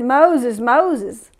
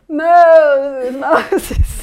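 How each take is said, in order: First: It is read in his own plain voice. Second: It is said imitating a movie actor's voice.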